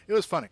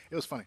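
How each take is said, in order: First: Loud and bright repeat. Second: Said in the usual way. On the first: Real, not acted. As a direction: belt out the amusement. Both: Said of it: "repeating it".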